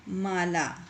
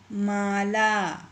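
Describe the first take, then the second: First: Said in the usual way. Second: Mala stretched very slowly, syllable by syllable. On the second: Shown as a demonstration. Teacher to pupils, sounding out Mala very slowly. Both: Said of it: "इसी तरह से ये आगे के जो शब्द हैं".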